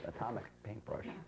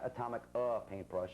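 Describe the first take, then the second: First: The name is said smoothly without hesitation. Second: A hesitant 'uh' breaks up the name. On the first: The speaker calls it right. "it's just Atomic Paintbrush" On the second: The speaker calls it wrong. "Not Atomic uh, Paintbrush"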